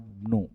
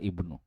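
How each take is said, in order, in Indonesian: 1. Huruf vokal pertama dihilangkan, disambung dengan kata sebelumnya. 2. Huruf vokal pertama i dibaca dengan jelas. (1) "Hadza bnu bukan ibnu" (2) "bukan ibnu"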